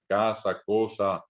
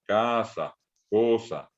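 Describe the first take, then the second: First: Said in the usual way. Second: "casa, cosa" leaning on CA and CO, falling after; stressed first syllable. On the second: Shown as a demonstration. («casa, cosa» cargando la voz en la primera sílaba) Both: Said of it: "Cargamos la voz".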